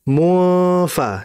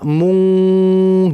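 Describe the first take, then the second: First: The nasal is hidden, with the lips moving toward f. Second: The nasal ends as a back ng sound. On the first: The speaker calls it right. "hati-hati dalam bacanya mufa" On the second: The speaker calls it wrong. "Jangan dibaca mung, jangan"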